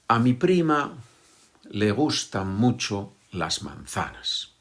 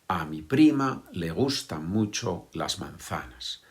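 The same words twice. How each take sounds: Both takes have the same delivery.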